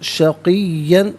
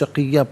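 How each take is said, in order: First: The word ends with an 'an' nasal ending. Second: The word ends with a long 'a' vowel. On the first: The reading continues without stopping. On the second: The reader stops at this word.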